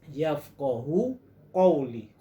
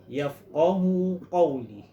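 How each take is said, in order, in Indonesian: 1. Bunyi q berat dan dalam di tenggorokan. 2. Bunyi q berat dan dalam di tenggorokan.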